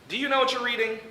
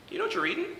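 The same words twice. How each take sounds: First: It sounds doubtful and condescending. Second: It sounds genuinely curious and interested. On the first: The asker questions whether the reader is capable. "It's not a matter of" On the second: The asker sincerely wants to know and help. "Instead, it's"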